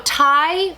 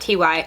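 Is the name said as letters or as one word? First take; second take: one word; letters. First: The name is said as one word. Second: The name is spelled out as two letters.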